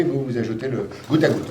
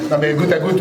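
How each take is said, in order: First: Said in the usual way. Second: A firm correction, goutte à goutte pressed home; stress on goutte à goutte. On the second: Shown as a demonstration. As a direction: insist on goutte à goutte.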